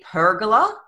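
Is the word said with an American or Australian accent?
American. It is said the American way.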